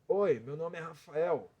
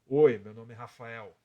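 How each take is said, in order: First: The voice is rough and pushed from the throat. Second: The voice is thicker and deeper, from the chest. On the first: "Eu vou tirar agora da garganta" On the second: "Agora eu vou tirar a voz de peito"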